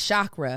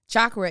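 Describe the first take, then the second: First: It begins with an sh sound. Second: It begins with a ch sound. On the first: The speaker calls it wrong. "often mispronounced as chakra, with the sh sound heard like in shoe and ship" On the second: The speaker calls it right. "Chakra is actually pronounced with the ch, with the sound heard in patch and munch"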